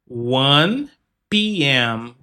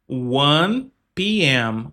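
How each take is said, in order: The two takes are said the same way.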